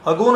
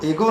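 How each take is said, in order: First: It starts with 'uh' and ends in plain 'o'. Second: It starts with 'ay' and ends in plain 'o'. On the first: "अगो नहीं है, ये गलत है" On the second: "वो एगो नहीं है"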